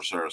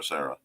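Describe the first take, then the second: First: Said in the usual way. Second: "Sarah" dropped much lower, deep radio announcer. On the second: Shown as a demonstration. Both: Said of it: "pull my radio voice out a little bit for Sarah".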